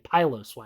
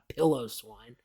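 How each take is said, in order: First: The first part does not sound like pillow. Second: The first part sounds like the word pillow. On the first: The speaker calls it right. "not I mean Piloswine" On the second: The speaker calls it wrong. "not pillow swine"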